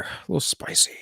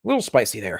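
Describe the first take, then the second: First: A little spicy whispered; breathy mock whisper of a little spicy; whispered aside. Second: Said in the usual way. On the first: Shown as a demonstration.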